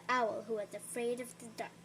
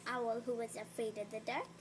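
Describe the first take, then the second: No difference in how they are said.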